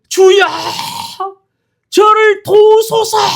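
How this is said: It is said as an earnest, desperate plea.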